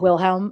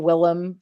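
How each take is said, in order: First: The name is said with the middle h sound. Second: The name is said without the middle h sound. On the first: "audiobook pronounces it Wilhelm" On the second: "pronounce it Willem"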